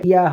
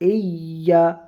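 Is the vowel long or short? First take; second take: short; long. First: The vowel is short, without stretching. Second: The vowel is stretched a little longer. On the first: The speaker calls it wrong. "ইয়া হবে না" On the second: The speaker calls it right. "এটা একটু টান হবে"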